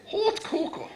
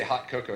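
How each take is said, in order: First: "hot cocoa" hooted with exaggerated rounded vowels; mock pronunciation. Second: Said in the usual way. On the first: Shown as a demonstration. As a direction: put on a silly, heightened "hot cocoa". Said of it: "we have to say hot cocoa". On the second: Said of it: "we can't say hot cocoa".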